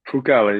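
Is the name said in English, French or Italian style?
Italian. The name is said with Italian pronunciation. This is the family's heritage pronunciation. The speaker calls it right. "Italian, so you always got to put a little spice to it"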